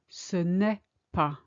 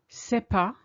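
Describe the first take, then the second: First: The ne sound is clearly pronounced. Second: The ne sound is dropped entirely. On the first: This is the formally correct way of speaking. "rather than ce n'est pas, which we should do" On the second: This is the casual everyday way of speaking. "when we speak, we tend to skip it. We say c'est pas"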